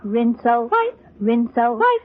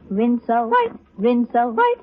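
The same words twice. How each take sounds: The two takes are said the same way.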